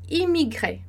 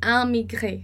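First: The first vowel is oral. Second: The first vowel is nasal. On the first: The speaker calls it right. "a gente vai falar emigré e imigré" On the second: The speaker calls it wrong. "a gente não fala emigré nem amigré"

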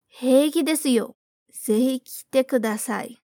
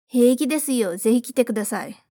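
First: The sentence is spoken slowly. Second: The sentence is spoken quickly. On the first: "Primeiro, devagar" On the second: "Vamos mais rápido dessa vez"

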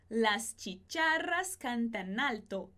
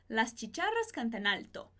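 First: The sentence is spoken at a slower pace. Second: The sentence is spoken at a faster pace. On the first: "Repete comigo" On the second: "E mais rápido"

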